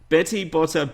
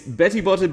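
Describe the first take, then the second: First: The words are said slowly. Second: The words are said very quickly. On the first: "I'll say it slow so you know what I'm trying to say" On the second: "I'm gonna just try and say it really fast"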